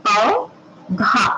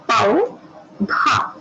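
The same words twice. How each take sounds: The two takes are said the same way.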